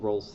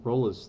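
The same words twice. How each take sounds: First: The final E is silent. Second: The final E is pronounced.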